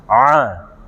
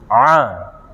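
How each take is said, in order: First: It is said with the mouth nearly closed. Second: It is said with the mouth nearly closed.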